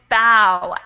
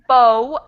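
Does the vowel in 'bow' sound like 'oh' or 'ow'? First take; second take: ow; oh. First: The vowel sounds like 'ow'. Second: The vowel sounds like 'oh'. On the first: "this next one is bow, ow" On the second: "the first one is bow, o"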